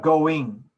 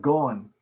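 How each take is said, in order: First: "going" drawn out slowly with a complete -ing; full enunciation. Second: "going" said as "goin'", without the final g; dropped ending. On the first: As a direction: form both syllables of "going" fully. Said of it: "you need to say that word correctly". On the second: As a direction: cut the -ing of "going" down to -in. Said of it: "is not going". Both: Shown as a demonstration.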